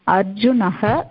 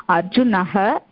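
No difference in how they are said.

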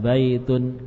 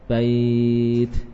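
First: The word ends with a nasal '-un' sound. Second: The word ends without the nasal '-un' sound. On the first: The reading continues without stopping here. "kalau wasol kan dibaca baitun" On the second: The reading stops at this word. "Kalau waqaf bait, tanwinnya tidak dibaca"

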